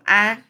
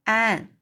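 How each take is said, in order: First: Sharp, loud call of the name; displeased. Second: Tender call to Anne; gentle, kind. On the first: Marilla calls Anne who gave no answer, displeased. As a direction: call Anne sternly, louder. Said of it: "这是玛丽拉有点不高兴哦". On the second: Marilla calls Anne in a rare kindly tone, gentle. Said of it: "用很难得亲切温柔的口气就说". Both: A narrator's reading.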